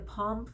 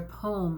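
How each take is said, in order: First: The vowel sounds like the one in palm. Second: The vowel sounds like the one in poem. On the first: "like a palm frond" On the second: "like a pomegranate"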